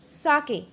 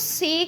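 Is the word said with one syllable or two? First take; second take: two; one. First: The word is said as two syllables. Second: The word is said as one short syllable. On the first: The speaker calls it right. "कुछ इस तरीके से" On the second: The speaker calls it wrong. "इसको सेक नहीं बोलेंगे हम"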